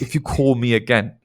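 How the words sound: It is said in a put-on British accent.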